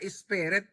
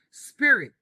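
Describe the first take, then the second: First: It has an added first vowel and Filipino-style vowels. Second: It starts with s and has English-style vowels. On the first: The speaker calls it wrong. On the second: The speaker calls it right.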